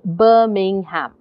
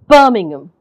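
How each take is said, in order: First: It is said slowly with every syllable clear. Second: The middle syllables are swallowed and barely heard. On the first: "if I said that slowly, if I said that without the stress" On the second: "Most you're hearing is B, and you're hearing the hum"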